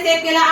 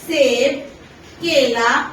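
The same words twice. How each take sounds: First: The words run together with no pause. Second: There is a short pause between the words. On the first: The list is hard to understand. The speaker calls it wrong. "इस तरीके से बोल दूं ... क्योंकि ये तरीका नहीं है" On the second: The fruits are listed as separate items. The speaker calls it right. "उनके बीच में मैंने थोड़ा थोड़ा सा गैप लिया है"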